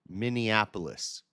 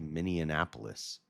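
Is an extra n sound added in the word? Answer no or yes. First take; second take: no; yes. First: No extra n sound is added in the word. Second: An extra n sound is added in the word. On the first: The speaker calls it right. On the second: The speaker calls it wrong.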